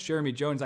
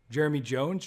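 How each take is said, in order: First: Jeremy Jones, said level and sure, no rise; confident statement. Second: Jeremy Jones? asked with a light questioning rise at the end; rising question. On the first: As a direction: state the name as if you already know him. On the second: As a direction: check the name, rising on Jones. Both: Shown as a demonstration. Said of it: "That felt really awkward".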